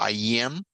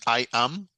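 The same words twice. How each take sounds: First: The I stretches into a y-sound before am. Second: The two words are said separately. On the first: The speaker calls it right. "ese sonido de I lo extendemos ahí un poquito" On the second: The speaker calls it wrong. "No es I am"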